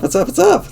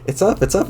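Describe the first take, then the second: First: Shrieked much higher and louder; squealing. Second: Excited. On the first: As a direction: squeal it out, totally overjoyed. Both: Acted. Mailbox flag goes up.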